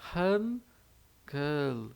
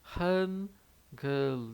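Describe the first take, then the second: The two takes are said the same way.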